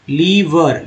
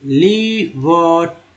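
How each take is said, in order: First: Said in the usual way. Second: लीवर very slowly, as लीई-वोर; drawn-out pronunciation. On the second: Shown as a demonstration. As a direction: stretch both syllables of लीवर. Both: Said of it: "अच्छे से पकड़िए".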